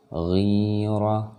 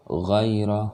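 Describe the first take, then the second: First: "ghira" with the i drawn out; long vowel. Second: "ghaira" with a brief ghai glide; short diphthong. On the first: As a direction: hold "ghi" long before "ra". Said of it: "oh ini panjang". ("ghira" dengan ghi dipanjangkan) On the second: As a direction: chant "ghaira" without stretching "ghai". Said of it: "oh ini tidak panjang". ("ghaira" tidak dibaca panjang) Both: Shown as a demonstration.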